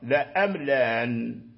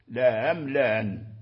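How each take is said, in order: First: Only the second glottal stop is softened. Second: Both glottal stops are softened. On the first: "تحقيق الأولى وتسهيل الثانية" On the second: "تسهيلهما معا"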